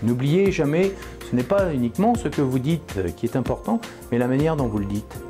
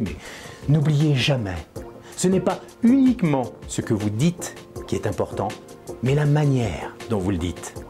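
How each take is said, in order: First: It is said flatly, without conviction. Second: It is said expressively, with conviction.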